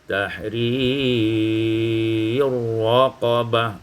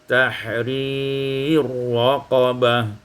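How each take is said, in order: First: The long vowel is held very long. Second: The long vowel is held moderately.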